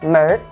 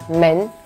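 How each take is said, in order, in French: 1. Le mot se termine par un son de type r. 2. Le mot se termine sans son de type r. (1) "À Pékin, on va dire" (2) "à Shanghai, on va dire"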